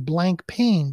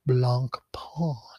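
First: It sounds like the English words blank pain. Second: It does not sound like English blank pain. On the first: The speaker calls it wrong. "which should be blank pain, but it's not pronounced that way" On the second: The speaker calls it right. "It's pronounced Blancpain"

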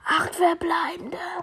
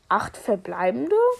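First: It sounds amazed and excited, like an exclamation. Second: It sounds hesitant and unsure, like a question. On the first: The number is seen as amazing. "oh mein Gott" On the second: The number is not seen as special. "okay, ich weiß nicht, ob das viel ist"

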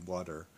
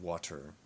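First: The middle consonant sounds like a D. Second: The middle consonant sounds like a T.

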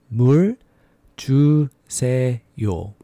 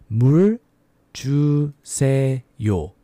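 No difference in how they are said.

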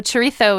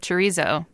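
First: It is said with a Spanish pronunciation. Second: It is said with an English pronunciation. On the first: The speaker calls it right. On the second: The speaker calls it wrong.

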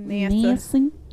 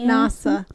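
First: The word is said with a country-style pronunciation. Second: The word is said with a standard pronunciation. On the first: "I sound country if I say NASA" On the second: "Or is it NASA?"

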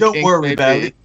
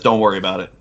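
First: It is said in a London accent. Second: It is said without a London accent.

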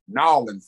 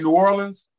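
First: The name is squeezed into two syllables. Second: The name is said in full, three syllables. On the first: "in New Orleans, they actually pronounce it Nolens" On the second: "You can say New Orleans"

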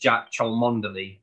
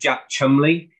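First: The surname is said in full, as spelled. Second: The surname is short, sounding like 'Chumley'. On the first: This is how the spelling suggests it is said. The speaker calls it wrong. "it looks like it should be pronounced Jack Cholmondeley" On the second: This is how the name is actually said. The speaker calls it right. "he's called Jack Chumley"

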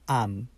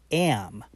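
First: The vowel is a plain, steady a sound. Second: The vowel glides like e into a. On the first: The speaker calls it wrong. "it's not I am, no" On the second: The speaker calls it right. "In American English, it's am"

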